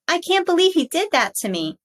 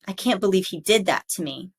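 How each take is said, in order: First: It is said in a high pitch. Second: It is said in a low, angry pitch. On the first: The speaker calls it wrong. "It would sound very strange to say something that you are angry about in a high pitch" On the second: The speaker calls it right. "Anger is the same way"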